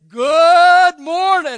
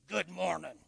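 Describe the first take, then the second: First: The greeting is said warmly, with enthusiasm. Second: The greeting is said flatly, without enthusiasm.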